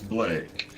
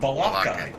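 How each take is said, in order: First: The name is said with one syllable. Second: The name is said with two syllables. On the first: The speaker calls it right. "actually it's Blake" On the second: The speaker calls it wrong. "pronounced my name Balake"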